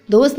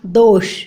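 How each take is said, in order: First: "दोष" ending in plain s; hissed s closing "दोष"; wrong pronunciation. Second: "दोष" lower, ending in sh; correct sh ending. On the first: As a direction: say "दोष" as dos. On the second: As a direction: say "दोष" as dosh. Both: Shown as a demonstration. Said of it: "दोष नहीं होता".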